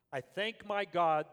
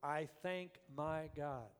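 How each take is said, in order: First: Slow, loud "I thank my God" with "my" punched; stress on my. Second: Slow, soft "I thank my God" leaning on "thank"; stress on thank. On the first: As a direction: lean hard on "my" in "I thank my God". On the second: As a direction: quietly linger on "thank" in "I thank my God". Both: Shown as a demonstration. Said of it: "the very first thing he says first".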